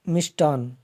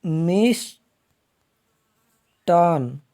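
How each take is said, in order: First: Said in the usual way. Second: मिष्टान split into long मिष्, a pause, long टान; slow breakdown. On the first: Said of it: "ये इसका शुद्ध रूप है". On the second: Shown as a demonstration. Teacher showing the correct form, मिष्टान very slow and split. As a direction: draw मिष्टान out in two halves. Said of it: "इसका शुद्ध रूप बनेगा".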